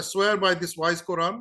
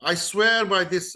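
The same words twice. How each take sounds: First: Slow solemn oath. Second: Said in the usual way. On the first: Retold or imitated. Quoting the oath twice.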